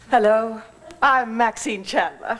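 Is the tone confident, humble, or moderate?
confident. It is said in a plain, confident tone.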